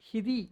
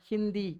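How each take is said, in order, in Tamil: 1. 'd'க்கு முன்னால் மூக்கு ஒலி இல்லாமல் உச்சரிக்கப்படுகிறது. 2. 'd'க்கு முன்னால் 'n' உடன் உச்சரிக்கப்படுகிறது. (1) "ஹிதி அப்படி தான் படிக்கணும்" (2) "ஹிந்தி அப்படின்னு படிப்பாங்க"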